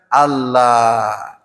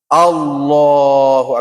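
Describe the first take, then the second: First: The l sound in Allah is light and thin. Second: The l sound in Allah is heavy and thick. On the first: The speaker calls it wrong. "bukan Allah, bukan, tapi tebal" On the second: The speaker calls it right. "Allahunya tebal"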